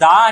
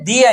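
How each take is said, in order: First: The word has a short 'uh' vowel. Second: The word has a long 'ee' vowel. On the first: The next word begins with a consonant sound. "కా నుంచి బండీరా వరకు ఎప్పుడైతే దాని pronunciation ఉంటుందో అప్పుడు దా అని" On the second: The next word begins with a vowel sound. "ఆ నుంచి అహా వరకు దాని ప్రొనౌన్సియేషన్ ఉంటే ది అని"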